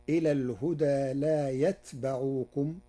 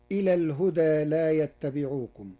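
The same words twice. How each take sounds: First: "يتبعوكم" as yatba'ukum; still ta, fatha on ba. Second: Said in the usual way. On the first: Shown as a demonstration. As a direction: say yat-ba for "يتبعوكم", with a single t and an open ba. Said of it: "بسكون التاء وفتح الباء". (نطق "يتبعوكم" بسكون التاء وفتح الباء) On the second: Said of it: "قرأ ورش كلمة يتبعوكم".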